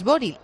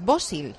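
First: The middle consonant is a plain r. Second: The middle consonant sounds like an s. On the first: The speaker calls it wrong. "Boril no es Boril" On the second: The speaker calls it right. "es Bosil"

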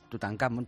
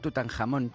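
First: The name is said in the English style. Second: The name is said in the Spanish style. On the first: This is the form long used by habit. "lo hemos llamado al estilo inglés Tutankamón" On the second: This is the form that should officially be used. "decirse habría que decir Tutankamón, pero a mí la verdad es que eso me suena un poco a charcutería"

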